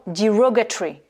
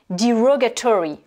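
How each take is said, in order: First: "derogatory" stressed on ROG, ending shortened to "tree"; second-syllable stress. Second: "derogatory" stressed on ROG, with full "tory" ending; second-syllable stress. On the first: Teacher offers learners a second variant, "derogatory" ending in "tree". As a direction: say "derogatory" with its next-to-last vowel dropped. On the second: Teacher offers learners a first variant, "derogatory" ending in "tory". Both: Shown as a demonstration. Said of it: "on accentue sur la".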